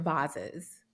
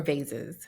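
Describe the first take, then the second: First: "vases" with an ah vowel and z sounds; vases as VAH-ziz. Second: "vases" with a long a and soft s; vases as VAY-siz. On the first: Host weighing two ways to say it, "vases" as VAH-ziz. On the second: Host offering the other option, "vases" as VAY-siz. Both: Shown as a demonstration.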